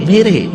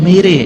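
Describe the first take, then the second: No difference in how they are said.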